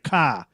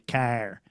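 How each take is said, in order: First: The word is said without the R, Boston style. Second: The word is said with a strong Michigan R.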